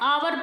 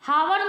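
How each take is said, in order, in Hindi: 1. शब्द स्वर ध्वनि से शुरू होता है। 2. शब्द h ध्वनि से शुरू होता है। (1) "इसको क्या पढ़ते हैं आवर पढ़ते हैं" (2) "हावर नहीं पढ़ते हैं हम"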